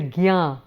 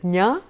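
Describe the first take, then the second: First: It starts with a hard g and y sound. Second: It starts with a quick j before ny. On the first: "you normally hear it pronounced as the gyā" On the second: "So you quickly go over the j like that"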